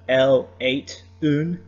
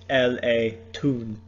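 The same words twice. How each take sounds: First: The syllables break apart before the vowel. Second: The T is carried onto the following vowel. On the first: The speaker calls it wrong. "instead of" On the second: The speaker calls it right. "you need to recognize where the vowel breaks"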